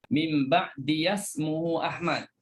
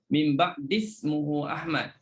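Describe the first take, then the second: First: The ya is sounded with an a vowel. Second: The ya is silent, run into the next word. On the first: "Imam Syu'bah dia baca dengan ya baris atas" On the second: "Kalau Hafs baca dengan ya apa ni dengan ya sukun ya"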